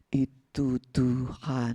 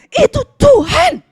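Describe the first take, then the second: First: It is said flatly, without enthusiasm. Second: It is said with excited enthusiasm. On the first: The speaker calls it wrong. "bilangnya nggak gini" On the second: The speaker calls it right. "Tapi bilangnya gini"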